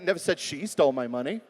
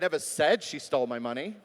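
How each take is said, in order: First: The word 'she' carries the main stress. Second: The word 'said' carries the main stress. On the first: Someone else stole it. "Could have been somebody else" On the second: It was communicated some other way. "Maybe it was in an email"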